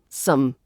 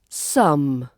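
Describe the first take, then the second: First: The vowel is reduced and quickly pronounced. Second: The vowel is full and clearly pronounced.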